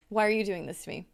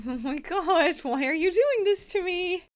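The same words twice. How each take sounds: First: Said in the usual way. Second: Higher, slow, drawn-out mock wail at the game; mock despair. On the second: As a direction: plead with the frozen game, hammed-up.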